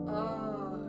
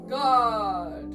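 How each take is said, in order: First: It is said in a gentler, softer voice. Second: It is said in a grand Shakespearean voice.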